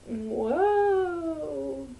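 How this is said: It sounds flat and unimpressed.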